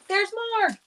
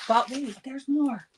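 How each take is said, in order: First: High, strained voice cracking up; straining with effort. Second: Said in the usual way. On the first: Real, not acted. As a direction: push through a struggling voice. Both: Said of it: "my voice is still struggling tonight".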